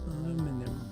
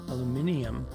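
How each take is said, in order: First: It has four syllables, without the extra sound. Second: It has five syllables, with an extra 'ee' sound.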